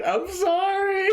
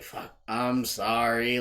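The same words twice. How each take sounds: First: Very high, stretched-out wheezy apology; imitating a buddy cracking up; mock laughing apology. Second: Slow, drawn-out apology; slow, subdued sorry; mock consoling apology. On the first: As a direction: squeal it as if helpless with laughter. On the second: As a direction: imitate a buddy trying to console her. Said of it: "trying to console her".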